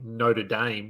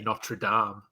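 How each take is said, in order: First: It is said the American way. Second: It is said the speaker's local way.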